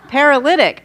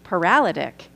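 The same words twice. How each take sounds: First: The 'lyt' syllable carries the stress. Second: The 'lyt' syllable is not the stressed one. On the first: The speaker calls it right. "I underlined the lib because I wanted to say that correctly" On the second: The speaker calls it wrong. "how I've said it in my past was"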